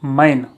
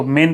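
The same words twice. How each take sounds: First: मैन said with the open ae vowel, like English man; teacher models the mistake मैन as man; wrong pronunciation. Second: मेन said with a short clear e, like English men; teacher models मेन as men, not man; correct pronunciation. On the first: Teacher shows students the wrong way: मैन with ae. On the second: Teacher shows students the right way: मेन with e. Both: Shown as a demonstration. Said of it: "मैन नहीं पढ़ेंगे".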